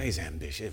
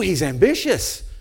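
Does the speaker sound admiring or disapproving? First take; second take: disapproving; admiring. First: It is said in a disapproving, sneering tone. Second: It is said in an admiring, approving tone. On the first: Ambition is treated as a bad quality. "We say" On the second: Ambition is treated as a good quality. "We never say it like that"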